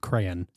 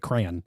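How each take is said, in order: First: It is said with two full syllables. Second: It is said as one syllable, like 'cran'. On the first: The speaker calls it right. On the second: The speaker calls it wrong.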